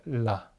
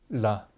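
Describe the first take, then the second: The two takes are said the same way.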